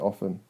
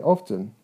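First: It is said with an American accent. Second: It is said with a British accent. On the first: "Americans always say often" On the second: "British people say often"

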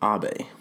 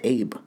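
First: The name is said as two syllables, 'ah-beh'. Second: The name is said as one syllable, like 'babe'. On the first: The speaker calls it right. "but it is Abe" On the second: The speaker calls it wrong. "a lot of Americans pronounce it Abe"

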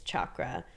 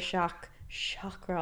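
First: It begins with a ch sound, as in cha-cha. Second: It does not begin with a ch sound. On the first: This follows the original Sanskrit spelling. The speaker calls it right. "It is chakra" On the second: This is the common everyday form. The speaker calls it wrong. "people say chakra all the time"

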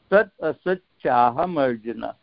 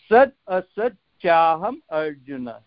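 The two takes are said the same way.

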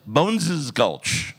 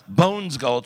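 First: The first word has two syllables. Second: The first word has one syllable. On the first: The speaker calls it right. "it's Bones's Gulch" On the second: The speaker calls it wrong. "So it's not Bones Gulch"

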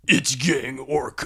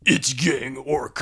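First: It is said in a put-on, very deep voice. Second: It is said in a put-on, very deep voice.

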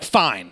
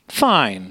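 First: It sounds curt and annoyed. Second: It sounds cheerful and genuinely okay.

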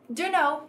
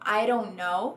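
First: The words blend into one reduced form. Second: The t becomes a quick r-like flap. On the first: "usando a contração informal" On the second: "ou formando um R"

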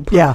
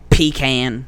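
First: The word is said the posh, pretentious way. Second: The word is said the plain Southern way. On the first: The speaker is putting on airs. "It sounds better, but it sounds more pretentious" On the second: This is how people raised in the South say it. "because we were raised in the South"

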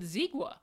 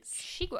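First: The word begins with a z sound. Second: The word begins with an sh sound. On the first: The speaker calls it wrong. "because I would have said zigua" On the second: The speaker calls it right. "is that how you pronounce it?"

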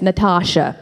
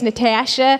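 First: The name is said the American way. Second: The name is said the Canadian way. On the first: "the American is Natasha" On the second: "the Canadian way is Natasha"

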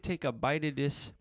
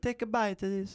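First: It is said in a Canadian accent. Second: It is said in an Italian accent. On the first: The speaker calls it right. "So give me the Canadian accent" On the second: The speaker calls it wrong. "Why are they Italian?"

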